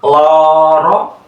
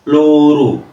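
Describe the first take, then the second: First: Loro with full open o vowels, rising; thick loro. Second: Loro said as luru with closed u vowels, falling; thin loro. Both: Shown as a demonstration. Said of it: "tebal tipis loh".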